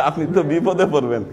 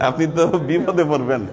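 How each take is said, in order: Both takes have the same delivery.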